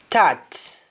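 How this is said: The word begins with a t sound. "In Jamaican, the S T in most cases changes to T"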